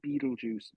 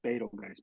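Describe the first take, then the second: First: It is pronounced like the words beetle juice. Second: It is pronounced following its written spelling. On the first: This is how everyone actually says the name. "But everybody says Beetlejuice" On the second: This is how the name is written. "on paper, it's written Betelgeuse"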